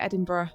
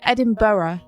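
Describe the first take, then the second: First: The last syllable is shortened to 'bruh'. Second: The last syllable is a full 'borough'. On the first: This is how the speaker says it. "I say Edinburgh" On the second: This is how the other person says it. "you say Edinburgh"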